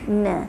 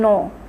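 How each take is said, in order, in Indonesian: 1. Vokalnya tipis dan melebar. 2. Vokalnya tebal dan bulat. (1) "Sebab dia huruf nipis" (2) "Tak boleh no"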